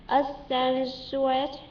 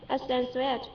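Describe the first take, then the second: First: Accentuate. stretched out syllable by syllable; slow practice. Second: Said in the usual way. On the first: Shown as a demonstration. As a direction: drag out Accentuate. slowly, like practising it. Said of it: "practising the word slowly". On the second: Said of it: "repeats the word normally".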